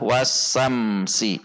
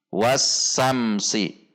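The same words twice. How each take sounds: Both takes have the same delivery.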